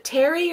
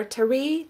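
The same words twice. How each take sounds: First: TERRY stressed on the first syllable, TER-ee; first pronunciation guess. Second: TERRY stressed on the last syllable, ter-REE; second pronunciation guess. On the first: Host asking a viewer's name, Terry stressed up front. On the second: Host offering another option, Terry stressed at the end. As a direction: try Terry as tuh-REE. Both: Shown as a demonstration. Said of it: "Is it Terry or Terry?".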